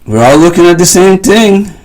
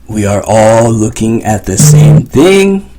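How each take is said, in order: First: "We are" is run together as "we're." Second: "We are" is said as two clear words.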